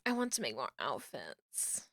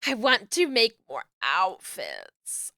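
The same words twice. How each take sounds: First: Much lower and softer; hushed repeat. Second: Said in the usual way. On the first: Real, not acted. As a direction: say it low, almost to yourself. Repeats wish to self, hushed.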